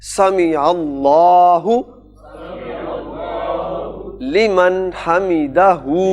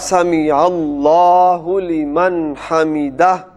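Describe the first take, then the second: First: The last word ends with a final u vowel. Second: The last word ends without a final vowel. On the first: The phrase continues without a stop. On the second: The reciter stops at this word.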